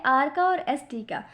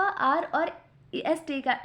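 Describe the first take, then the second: First: Said in the usual way. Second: आर और ST का said slowly, आर stretched; slow teacher's repeat of the answer; slow, drawn-out repeat. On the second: Shown as a demonstration. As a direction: repeat it slowly so students catch it. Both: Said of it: "किसका इजाफा?".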